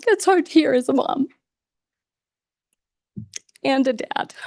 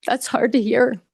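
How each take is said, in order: First: Tears winning on the repeat; real voice cracking as a parent; choked up. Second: Holding back tears, voice tightening; swallowing emotion as the words come out; first catch in the throat, still holding together; choked up. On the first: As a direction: voice breaking, pitched higher and straining. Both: Real, not acted. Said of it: "I'm getting a little choked up".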